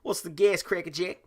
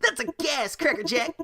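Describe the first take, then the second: First: It is said in a Vinny Vegas voice. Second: It is said in a different character voice.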